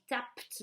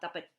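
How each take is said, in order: First: The ending is a single consonant, no extra syllable. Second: The ending is pronounced as an extra syllable. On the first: The speaker calls it right. "ça donne" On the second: The speaker calls it wrong. "et non pas"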